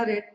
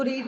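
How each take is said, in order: First: रेड with a short e, like "red"; रेड as the past participle sound; short-e pronunciation. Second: रीड with a long ee, like "reed"; रीड as the present-tense sound; long-ee pronunciation. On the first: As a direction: say रेड to rhyme with "bed". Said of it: "रेड पढ़ना है". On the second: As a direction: say रीड to rhyme with "need". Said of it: "रीड नहीं पढ़ना". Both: Shown as a demonstration.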